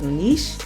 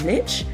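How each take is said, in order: First: The word is said in a French-style way. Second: The word is said in an English-style way. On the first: The speaker calls it right. "My friend is French, and she says the word is niche" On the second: The speaker calls it wrong. "and not niche"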